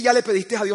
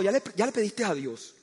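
First: Said in the usual way. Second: Soft, sweet imitation of the wife; wife's soft question. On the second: Wife softly asks if he prayed, tender mock. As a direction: ask it tenderly, a touch naive.

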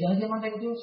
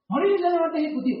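First: "diamante ejecutivo" softly echoed back; deflated echo question. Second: High start falling through "diamante ejecutivo"; matter-of-fact statement. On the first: Hearing Mauricio's rank, deflated soft echo of "diamante ejecutivo". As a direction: repeat "diamante ejecutivo" quietly, taken aback. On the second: Friend reporting Mauricio's rank, falling "diamante ejecutivo". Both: Retold or imitated.

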